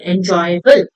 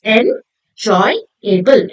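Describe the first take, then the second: First: Said in the usual way. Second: 'enjoyable' very slow, split en, joy, able; syllable by syllable. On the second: Shown as a demonstration. Teacher breaking the word up for children, syllable by syllable. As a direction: leave gaps inside 'enjoyable'. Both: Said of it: "made up of three syllables".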